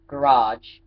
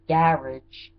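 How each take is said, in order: First: It is said in an American accent. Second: It is said in a British accent. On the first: "for garage" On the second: "how they say garage"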